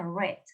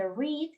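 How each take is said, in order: First: "read" said like the color red; short e in "read", rhyming with bed; past-tense pronunciation. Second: "read" with a long ee, like "reed"; present-tense pronunciation. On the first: Teacher explaining the past form, past-tense pronunciation. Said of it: "se pronuncia read, como el color". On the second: Teacher contrasting present with past, present-tense pronunciation. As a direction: say "read" to rhyme with need. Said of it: "ahí sí va a haber un pequeño cambio". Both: Shown as a demonstration.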